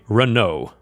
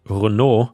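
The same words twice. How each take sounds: First: It is pronounced the American English way. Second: It is pronounced the French way. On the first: This is how it is said in American English. "in American English you would say Renault" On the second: This is how it is said in Europe. "I think in Europe we would pronounce it Renault, which is the French way"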